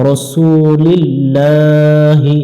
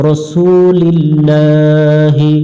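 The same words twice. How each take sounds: No difference in how they are said.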